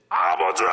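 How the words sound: It is cried out loudly and proudly. The speaker is proud and glad to call out. The speaker calls it right. "너무 자랑스러워서 ... 부르짖는데"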